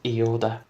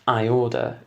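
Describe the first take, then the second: First: The name begins with an 'ee' sound. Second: The name begins with an 'eye' sound. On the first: The speaker calls it wrong. "it pronounces it E order" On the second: The speaker calls it right. "attempts to say I order"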